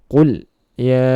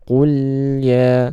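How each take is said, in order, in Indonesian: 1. Bunyi L dipotong mendadak. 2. Bunyi L mengalir dengan lancar. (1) "jangan diputus ... ini juga kurang tepat" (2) "sedikit dialirkan lamnya ya"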